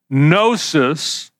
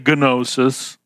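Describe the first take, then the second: First: The word begins without a G sound. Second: The word begins with a hard G sound. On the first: The speaker calls it right. "the G is silent" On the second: The speaker calls it wrong. "we don't say gnosis"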